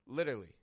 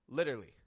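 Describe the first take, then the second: The two takes are said the same way.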